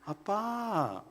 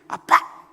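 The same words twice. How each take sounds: First: It is said in a sweet, honeyed tone. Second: It is called out in an annoyed, sulky tone. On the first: The child feels close and affectionate. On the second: The child is upset with the father.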